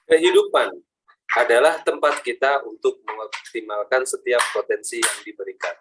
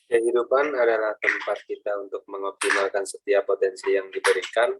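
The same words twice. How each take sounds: First: It is said with added energy. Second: It is said plainly, without extra power.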